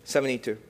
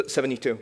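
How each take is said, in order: Both takes have the same delivery.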